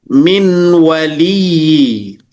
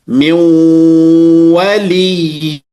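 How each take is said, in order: First: The n is pronounced clearly before the w. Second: The n merges into the w with a nasal hum. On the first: The speaker calls it wrong. "tidak lagi dibaca min waliyi" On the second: The speaker calls it right. "dengungnya pada pertemuannya"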